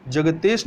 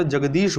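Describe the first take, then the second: First: जगतेश with t and long e; wrong form. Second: जगदीश with d and long i; correct form. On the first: Teacher rejects a misspelling, जगतेश with "tesh". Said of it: "जगतेश नहीं होता". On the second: Teacher gives learners the correction, जगदीश with "deesh". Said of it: "जगदीश होता है". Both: Shown as a demonstration.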